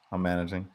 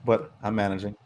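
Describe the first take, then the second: First: Softer, trailing off to himself; softer, sadly reassuring himself; quiet, resigned repeat. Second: Said in the usual way. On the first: Real, not acted. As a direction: say it again under your breath, a bit lonely.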